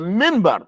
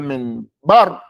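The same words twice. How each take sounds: First: The stress is on the first syllable. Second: The stress is on the second syllable. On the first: The speaker calls it right. "it's the minbar" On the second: The speaker calls it wrong. "what's the bar part? What are you trying to emphasize?"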